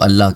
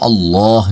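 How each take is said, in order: First: The L in Allah is light and thin. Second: The L in Allah is heavy and full. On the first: This follows the Urdu habit of speech. The speaker calls it wrong. "क्योंकि उर्दू में अल्लाह कहा जाता है" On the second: This follows the Arabic pronunciation. The speaker calls it right. "वो अल्लाह नहीं कहते"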